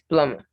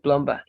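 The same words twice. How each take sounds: First: The b sound is silent in the middle. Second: The b sound is pronounced in the middle. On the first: The speaker calls it right. "The B is silent" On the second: The speaker calls it wrong. "So it's not plumber"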